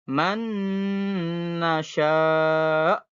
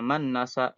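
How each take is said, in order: First: The nasal sound is held long. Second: The nasal sound is rushed and short. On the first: The speaker calls it right. "Ditahan dulu" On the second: The speaker calls it wrong. "jangan berburu-buru misal man nasa, ya nggak boleh ya"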